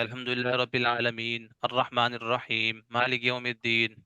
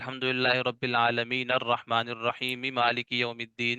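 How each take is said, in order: First: Each verse ends with a stop before the next. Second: The verses run together without stopping between them. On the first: "वहां पर साकिन करते हैं, ... सांस को जो है वो रोक देते हैं" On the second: "जब आपको मिलाकर पढ़ना होता है"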